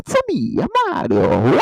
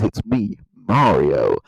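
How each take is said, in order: First: It is said in Mario's exaggerated accent. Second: It is said in an American accent.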